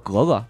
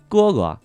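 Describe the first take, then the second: First: It is said in a Tongzhou accent. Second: It is said in standard Mandarin.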